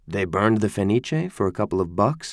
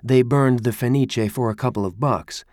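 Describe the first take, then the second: First: The voice rises at the end like a question. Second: The voice falls at the end like a statement. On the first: It doubts anyone could be that stupid. "She could have meant it as a question" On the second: It asserts the fire was set for a little money. "it sounds like a statement"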